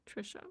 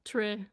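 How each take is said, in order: First: "Trisha" whispered softly as TRISH-uh; quiet whispered echo of her own name; whispered repeat. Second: "Trisha" said clearly as TRISH-uh; showing how "Trisha" is pronounced; name said plainly. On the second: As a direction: say "Trisha" as TRISH-uh, the way it really sounds. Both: Shown as a demonstration. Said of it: "this is how it sounds".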